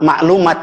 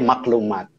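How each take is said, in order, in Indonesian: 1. Ada hentian glotis setelah suku kata pertama. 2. Ada bunyi k setelah suku kata pertama.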